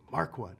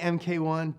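First: The abbreviation is spoken as the word mark. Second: The letters M and K are spoken separately. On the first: The speaker calls it right. "say Mark I" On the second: The speaker calls it wrong. "don't say MK1"

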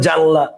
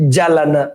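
First: It is two syllables with n then l. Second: It is three syllables with l then n. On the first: "অনেকে বলে জানলা" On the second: "অনেকে উচ্চারণ বলে জালানা"

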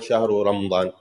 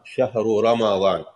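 First: There is no vowel right after the m. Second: There is a short a vowel after the m. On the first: The speaker calls it wrong. "It's not Shahru Ramadan" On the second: The speaker calls it right. "as it is mentioned in the Quran. Shahru Ramadan"

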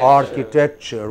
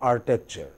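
First: Every sound is said slowly and clearly. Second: It is said quickly with some sounds dropped. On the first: "go slowly, comfortably" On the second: "if you speak in a hurry, it becomes architecture"

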